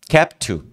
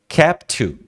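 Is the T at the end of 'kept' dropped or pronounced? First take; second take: dropped; dropped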